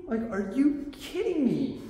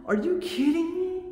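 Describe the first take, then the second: First: Slower are you kidding me, leaning on kidding and falling away; real frustration repeated slowly; slowed, drawn-out disbelief. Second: High, sharp are you kidding me with the push on you; real frustration, pitched way up; exasperated disbelief. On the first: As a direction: stretch it out, worn down and incredulous. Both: Real, not acted. Venting about the power outage.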